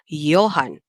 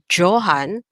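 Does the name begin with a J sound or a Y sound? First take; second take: Y sound; J sound. First: The name begins with a Y sound. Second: The name begins with a J sound. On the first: The speaker calls it right. "we say Johann. the J is pronounced like a letter Y" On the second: The speaker calls it wrong. "instead of saying the word Johann"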